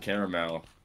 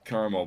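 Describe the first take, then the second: First: Caramel is pronounced the way LA speakers say it. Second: Caramel is pronounced the way Kansas speakers say it. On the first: "in LA where I'm at right now, everyone says caramel" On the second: "in Kansas we say caramel"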